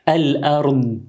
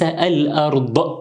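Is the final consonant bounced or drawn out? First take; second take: drawn out; bounced. First: The final consonant is drawn out smoothly. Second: The final consonant is released with a bounce. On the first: The speaker calls it right. "هذا هو حرف الضاد الأرض" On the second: The speaker calls it wrong. "وليس الأرض"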